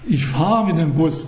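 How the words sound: The stress falls on the word fahre. I ride the bus rather than push or pull it. "Ich tue da nicht schieben oder was weiß ich, oder ziehen"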